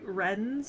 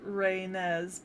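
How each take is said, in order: First: The name is pronounced the French way. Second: The name is pronounced the Japanese way. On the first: "if you go with like the more European kind of French roots of it" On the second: "if you go with the Japanese"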